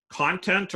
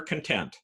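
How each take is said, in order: First: "Content" as CON-tent; first-syllable stress. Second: "content" as con-TENT; second-syllable stress. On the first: Lecturer quizzing on heteronyms, front-stressed "Content". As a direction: stress the start of "Content", as the noun. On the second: Lecturer offering the other reading, end-stressed "content". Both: Shown as a demonstration. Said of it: "where you put the emphasis".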